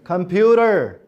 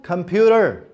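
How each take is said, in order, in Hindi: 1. t को नरम d जैसे flap की तरह बोला जाता है। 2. t को नरम d जैसे flap की तरह बोला जाता है।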